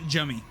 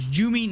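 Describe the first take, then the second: First: The first syllable sounds like 'um'. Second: The first syllable does not sound like 'um'. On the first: The speaker calls it wrong. "I was making it um um um" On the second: The speaker calls it right. "So it's Jumi"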